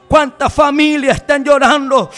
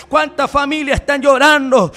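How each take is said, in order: Both takes have the same delivery.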